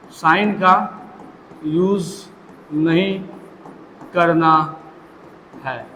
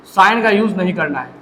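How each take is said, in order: First: "sign का... use... नहीं... करना... है", a long pause between words; word-by-word emphasis. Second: Said in the usual way. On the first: Real, not acted. Rule repeated word by word for emphasis.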